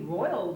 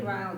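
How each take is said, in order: First: The vowel sounds like 'oy'. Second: The vowel sounds like 'eye'. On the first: This follows the standard spelling. "it's R O I L, and you ought to be saying" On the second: This is the older, Appalachian pronunciation. "pronounced it like in a long I"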